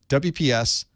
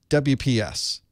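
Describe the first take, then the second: No difference in how they are said.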